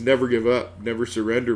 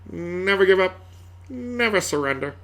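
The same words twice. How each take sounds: First: It is said casually, without much weight. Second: It is said dramatically, with heavy weight. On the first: The words do not inspire. The speaker calls it wrong. "Doesn't carry the same weight" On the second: The words inspire you to keep going. The speaker calls it right. "you gotta say it like that"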